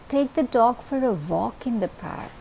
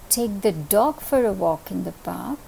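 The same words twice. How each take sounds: First: The word walk carries the main stress. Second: The word dog carries the main stress. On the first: Going for a walk is what matters. "You're going to take it for a walk. That is important over here" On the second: It must be the dog and no other pet. "If I place the accent on dog"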